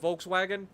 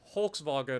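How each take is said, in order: First: It is said with an American pronunciation. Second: It is said with a German pronunciation. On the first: "if you're thinking of Volkswagen for us" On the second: "or something like that for the German"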